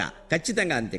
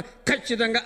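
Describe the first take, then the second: First: ఖచ్చితంగా said with a plain unaspirated క, kachchitanga. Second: ఖచ్చితంగా said with a pushed, breathy aspirated ఖ; the wrong, aspirated ఖచ్చితంగా. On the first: Shown as a demonstration. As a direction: say ఖచ్చితంగా with the soft క of కడవ. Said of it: "కకారంలో కడవలో క". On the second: Retold or imitated. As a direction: hit the first sound of ఖచ్చితంగా hard as ఖ. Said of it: "అని ఒత్తి పలుకుతాం".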